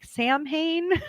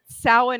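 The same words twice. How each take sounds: First: The word is sounded out the way it looks. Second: The word is said in its traditional pronunciation. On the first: The reader is guessing from the written form. The speaker calls it wrong. "everyone when they read it, they're like" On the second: The speaker knows the established pronunciation. The speaker calls it right. "Samhain is the pronunciation of this one"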